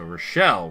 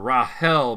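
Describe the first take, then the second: First: The name is said the French way. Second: The name is said the Danish way. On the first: "her mom is actually French, so Rochelle would also be appropriate" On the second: "I call her Rahel because her her dad is uh, Danish"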